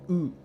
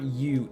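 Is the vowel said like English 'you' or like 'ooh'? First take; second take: ooh; you. First: The vowel is said like 'ooh'. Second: The vowel is said like English 'you'. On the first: The speaker calls it right. "it's U because it's a it's a Romance language" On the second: The speaker calls it wrong. "French U is not U"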